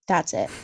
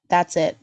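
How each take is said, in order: First: Said in the usual way. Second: Laughing through the words. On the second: Real, not acted. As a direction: chuckle it out, amused. Laughing at how short her bio is.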